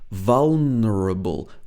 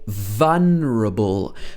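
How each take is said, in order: First: The word is said with every syllable pronounced. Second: The word is said with a syllable dropped. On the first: "sometimes we would pronounce this in full" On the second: "sometimes we would say vulnerable"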